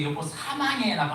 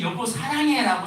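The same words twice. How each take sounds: First: "사망해" sa-mang-hae, pointed out as the typo; wrong word. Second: 사랑해 with r, high and loud; "사랑해" sa-rang-hae, exclaimed high; correct word. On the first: Pastor naming the typo 사망해, emphatic. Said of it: "잘못 써가지고". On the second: Pastor exclaiming the text she meant, 사랑해 high and loud. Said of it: "써야 되는데". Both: Shown as a demonstration.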